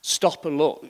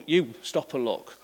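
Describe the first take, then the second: First: Said in the usual way. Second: "You" drawn out and set apart; stress on You. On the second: Shown as a demonstration. Preacher putting the onus on listeners, slow stress on "You". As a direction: lean slowly on "You", then let the rest fall. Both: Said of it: "the emphasis is on us".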